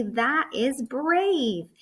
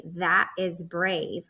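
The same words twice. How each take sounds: First: Slow, higher and louder, "brave" stretched out; excited. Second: Said in the usual way. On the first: Shown as a demonstration. Teacher modelling an exclamation point for kids, excited. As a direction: cheer it like it's amazing. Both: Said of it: "I'm gonna say it excited".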